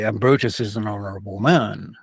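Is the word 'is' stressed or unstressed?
unstressed. The word 'is' carries no special stress. The line has little force. The speaker calls it wrong. "if you just say"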